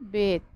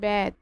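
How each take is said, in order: First: The vowel is a closed 'e' sound. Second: The vowel is an open 'æ' sound. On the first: The speaker calls it right. "কিন্তু সঠিক উচ্চারণ হচ্ছে বেদ" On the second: The speaker calls it wrong. "বেদ না বলে বলবে বেদ"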